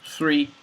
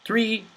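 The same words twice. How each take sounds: First: "three" said close to "tree"; the plant word "three"; voiced th like tree. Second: "three" with tongue between teeth; "three" with a clear θ; voiceless th. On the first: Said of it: "The second one is the number". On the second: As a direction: blow air through "three". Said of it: "these two words". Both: Shown as a demonstration.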